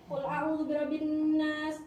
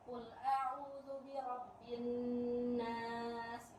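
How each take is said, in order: First: The verse is rushed very fast, all in one breath. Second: The verse is recited at a slow pace. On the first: "Ada lagi yang lebih cepat, terawih satu surat satu kali nafas" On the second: "Itu mode pelan"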